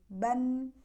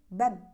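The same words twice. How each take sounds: First: The final n flows on slightly through the nose. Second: The final n is cut off abruptly. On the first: The speaker calls it right. "tapi alirkan sedikit" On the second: The speaker calls it wrong. "enggak boleh ban ya"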